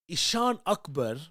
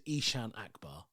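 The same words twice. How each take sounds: First: Ishan Akbar as ih-SHAAN UK-bur; original accented name. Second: Ishan Akbar as EE-shan AK-bar, English vowels; anglicized name. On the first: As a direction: say Ishan Akbar with long AH, then short UK-bur. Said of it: "do the accent when you say". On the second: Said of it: "It's just accented differently". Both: Shown as a demonstration.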